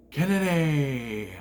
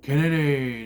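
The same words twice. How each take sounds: First: Kennedy stretched very slow and held; slow, drawn-out Kennedy!; drawn-out name call. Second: Kennedy punched short and louder; quick, louder Kennedy!; sharp name shout. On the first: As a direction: announce Kennedy slowly like a ring announcer. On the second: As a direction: bark Kennedy out at the crowd. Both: Retold or imitated. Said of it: "he goes".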